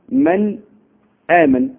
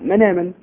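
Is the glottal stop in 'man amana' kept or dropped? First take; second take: kept; dropped. First: The glottal stop after 'man' is pronounced. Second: The glottal stop drops; its vowel joins the 'n'. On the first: This is the ordinary reading. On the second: This follows one reciter's transmission rule.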